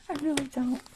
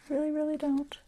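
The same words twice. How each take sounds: First: Whispering. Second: Said in the usual way. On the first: Real, not acted. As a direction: whisper it to yourself. Muttering to herself while sewing.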